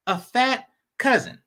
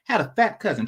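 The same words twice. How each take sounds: First: Said in the usual way. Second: Had said with weight at the start; stress on had. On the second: Shown as a demonstration. To make the past tense clear, a stressed Had. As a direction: lean on the word Had to mark it as the past. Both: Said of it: "I'm emphasizing the word had".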